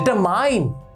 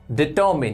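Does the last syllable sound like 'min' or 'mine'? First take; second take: mine; min. First: The last syllable sounds like 'mine'. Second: The last syllable sounds like 'min'. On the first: The speaker calls it wrong. "No, it is डिटर्मिन" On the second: The speaker calls it right. "याद रखिएगा ये डिटरमाइन नहीं होता, ये होता है डिटर्मिन"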